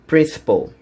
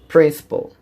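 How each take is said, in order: Both takes have the same delivery.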